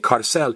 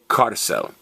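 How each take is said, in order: First: The stress is on the last syllable. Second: The stress is on the first syllable. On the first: The speaker calls it wrong. "don't say carcel" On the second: The speaker calls it right. "say carcel"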